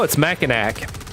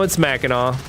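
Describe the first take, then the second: First: It is pronounced the way outsiders say it. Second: It is pronounced the way locals say it. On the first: The speaker calls it wrong. "People look at Mackinac and go, oh" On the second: The speaker calls it right.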